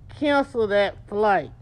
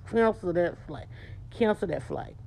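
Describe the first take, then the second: First: Slow firm Cancel that flight, each word weighted; a coach drilling the phrase; firm command. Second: Softer, clipped through a tight jaw; a firm refusal through a set jaw; tight-jawed command. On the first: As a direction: say Cancel that flight slowly and flat. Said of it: "Say it like that". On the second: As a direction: say Cancel that flight with a tight lip and jaw. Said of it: "Tight lip, tight jaw". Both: Shown as a demonstration.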